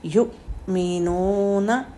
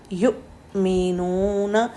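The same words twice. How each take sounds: First: युमिनूना very slow, sharp catch on the sakin hamza; hamza with a jolt. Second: युमिनूना slow, strong glottal catch in the middle; hamza jolt repeated. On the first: Teacher reciting a Quran word to show a jolt. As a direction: give युमिनूना a firm glottal jolt. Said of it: "जैसे हम पढ़ते हैं". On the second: Teacher repeating the word to stress its jolt. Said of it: "कितना strong झटका दे रहे हैं". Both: Shown as a demonstration.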